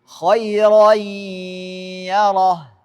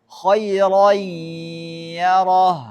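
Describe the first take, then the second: The two takes are said the same way.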